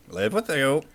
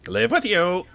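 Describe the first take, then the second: First: Said in the usual way. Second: Much higher, stunned echo; astonished creature. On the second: Acted. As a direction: echo it in disbelief. Creature repeats offer, astonished.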